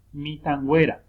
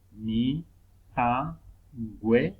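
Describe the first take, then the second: First: Said in the usual way. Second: "mi, tangüera" slowly broken into syllables. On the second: Shown as a demonstration. Teacher showing digraphs stay together, "mi, tangüera" syllable by syllable. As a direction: draw out each syllable of "mi, tangüera", pausing between. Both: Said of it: "los dígrafos no se separan".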